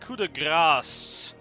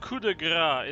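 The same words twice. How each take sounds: First: It is pronounced the French way. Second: It is pronounced in an anglicized way. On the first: The speaker calls it right. "This is a French fucking term. I know how it's pronounced" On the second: The speaker calls it wrong. "It's not coup de grace"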